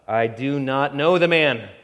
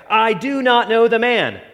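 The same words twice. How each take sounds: First: Said in the usual way. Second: Higher, louder cursing denial; sworn denial. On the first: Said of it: "he denied it with an oath". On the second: A narrator's reading. Peter swearing he never knew Jesus, raised and desperate. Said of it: "began to invoke a curse on himself and to swear".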